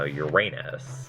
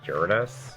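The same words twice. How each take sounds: First: The stress is on the second syllable. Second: The stress is on the first syllable. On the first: "the anglicized pronunciation, which is uh, Uranus, which puts the emphasis on the middle A" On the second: "I always say Uranus because, you know, it's a Greek word. So obviously you would put emphasis on, like, a different part of the word"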